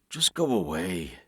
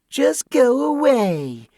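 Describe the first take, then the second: First: It is said in a normal adult voice. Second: It is said in a mocking, childish voice.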